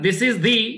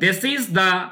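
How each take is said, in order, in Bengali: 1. "The" উচ্চারণ হয় লম্বা "ee" স্বরে। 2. "The" উচ্চারণ হয় ছোট, হালকা স্বরে।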